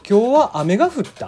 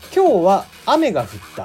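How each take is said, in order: First: It has Kagoshima intonation, nearly reversed. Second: It has standard Japanese intonation.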